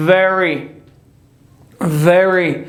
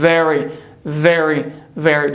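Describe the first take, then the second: First: Very with W for V, as many learners say it; the common learner's mistake; wrong very. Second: Very with a clear V, teeth on lip; correct very. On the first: (وری اشتباه با صدای و) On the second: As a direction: say Very with a true V. (وری درست با صدای و انگلیسی) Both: Shown as a demonstration.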